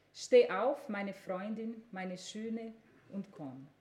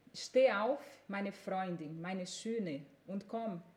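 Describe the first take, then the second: Both takes have the same delivery.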